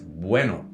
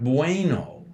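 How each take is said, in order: First: The vowels are pure and steady. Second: The vowels glide like English diphthongs. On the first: The speaker calls it right. "Spanish also has pure vowels, and they're not diphthongs" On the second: The speaker calls it wrong. "So it's not bueno. An English speaker will say bueno"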